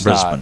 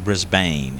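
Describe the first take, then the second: First: The name is said with the local pronunciation. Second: The name is said with a non-local pronunciation. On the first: The speaker calls it right. "It's of course Brisbane" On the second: The speaker calls it wrong. "They don't say Brisbane"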